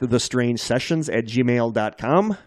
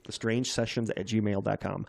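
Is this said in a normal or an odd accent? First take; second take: odd; normal. First: It is said in an odd, unusual accent. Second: It is said in a normal, ordinary accent.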